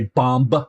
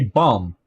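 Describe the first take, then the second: First: A B sound is heard after the M. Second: It ends on a hard M without B. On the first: The speaker calls it wrong. "they don't say bomb" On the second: The speaker calls it right. "They say bum"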